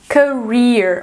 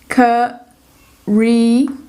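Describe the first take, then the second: First: A long ee vowel followed by an r. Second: An ee-uh glide with no r sound. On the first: "no americano... aquele I comprido com um R" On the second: "no britânico, como eles não pronunciam o R, ficaria aquele ditongo"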